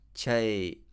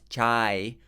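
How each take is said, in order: First: The vowel is said with the mouth less open. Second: The vowel is said with the mouth wide open. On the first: The speaker calls it right. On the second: The speaker calls it wrong.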